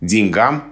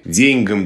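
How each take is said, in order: First: The stress is on the second syllable. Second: The stress is on the first syllable. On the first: This is the modern form. The speaker calls it right. "направление движения в сторону вариантов" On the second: This is an old-fashioned form. The speaker calls it wrong. "Ударение на первом слоге"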